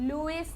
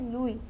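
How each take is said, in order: First: The name ends with an s sound. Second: The name ends on a vowel, no s. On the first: The speaker calls it wrong. "लुइस नहीं है" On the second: The speaker calls it right. "ये है लुई"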